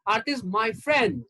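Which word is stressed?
friend. The word friend carries the stress. She is a friend, not a partner or relative. "That means she's my friend and she's not my wife or my girlfriend or my sister"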